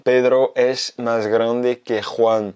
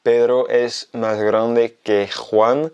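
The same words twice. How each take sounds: First: Slow, careful Spanish example; slow demo. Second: Very slow, clear repetition; slow repeat. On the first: Teacher reading a Spanish example slowly to French learners. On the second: Teacher repeating the example very slowly for learners. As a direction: say it again even slower. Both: Shown as a demonstration. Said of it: "je vais donner un exemple".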